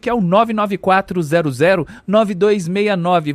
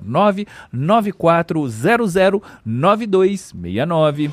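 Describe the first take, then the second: First: The number is read at normal speed. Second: The number is read very slowly.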